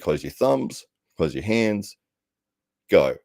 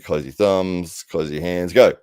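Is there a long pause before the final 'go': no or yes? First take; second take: yes; no. First: A long pause comes before the word go. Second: The word go follows with no long pause.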